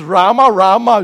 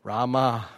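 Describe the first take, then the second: First: Loud double call; louder Rama, Rama, with rising warning. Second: Said in the usual way. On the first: Shown as a demonstration. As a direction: call the name twice, loud and sharp, like trouble. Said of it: "If it's". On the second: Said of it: "Other places call you one time".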